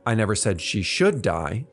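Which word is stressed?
should. The stress falls on the word should. It was not said to be deserved.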